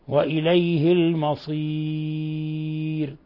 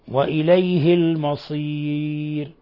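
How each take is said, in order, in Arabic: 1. الحرف الذي قبل الراء الأخيرة متوسط. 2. الحرف الذي قبل الراء الأخيرة قصير. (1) "توسط" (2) "قصر"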